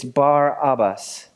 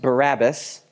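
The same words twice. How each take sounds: First: Slow "Bar Abbas" as two words, stress on Bar; split pronunciation. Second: "Bar Abbas" as two words, stress on Bar; split pronunciation. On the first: Pastor correcting the congregation, "Bar Abbas" split. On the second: Pastor teaching the name, "Bar Abbas" split in two. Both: Shown as a demonstration. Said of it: "It's not pronounced Barabbas".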